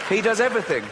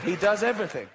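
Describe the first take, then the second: First: Does punched; stress on does. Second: Does said through a laugh; laughing repeat. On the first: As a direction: hit the word does. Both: Shown as a demonstration.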